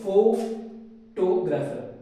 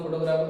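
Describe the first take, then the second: First: One syllable is said with extra stress. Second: The word is said flat, without marked stress. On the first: "किसी एक word के ऊपर ज्यादा stress दे रहा हूं" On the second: "अगर मैं सीधा बोलता हूँ"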